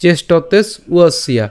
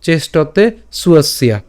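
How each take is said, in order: First: "চেষ্টতেস", slight break, then "উয়সিয়া", slowly; split pronunciation. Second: "চেষ্টতে" open-ended, then "সুয়সিয়া" with s leading; joined pronunciation. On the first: Teacher showing the broken-up version, slow "চেষ্টতেস উয়সিয়া". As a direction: attach the s to "চেষ্টতেস" and begin afresh on "উয়সিয়া". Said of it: "ভেঙে করলে". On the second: Teacher offering the alternative reading, slow "চেষ্টতে সুয়সিয়া". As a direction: move the s onto the start of "সুয়সিয়া". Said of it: "অথবা". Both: Shown as a demonstration.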